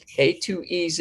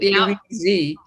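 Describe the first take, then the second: First: The last letter is said the British way, zed. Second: The last letter is said the American way, zee.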